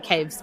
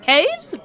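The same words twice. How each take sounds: First: The voice falls flatly on the word. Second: The voice rises on the word, like a question. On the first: The speaker calls it wrong. "not caves" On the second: The speaker calls it right. "It's said with the question mark"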